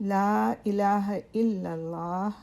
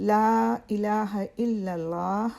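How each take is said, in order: Both takes have the same delivery.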